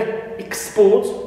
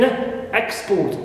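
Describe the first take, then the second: First: The stress is on the second syllable. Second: The stress is on the first syllable. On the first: It is used as a verb. "stress on second, as verb" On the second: It is used as a noun. "export as noun"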